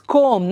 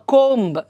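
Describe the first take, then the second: First: No b sound is heard at the end. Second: A b sound is heard at the end. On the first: The speaker calls it right. "It's comb" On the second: The speaker calls it wrong. "not comb or comb"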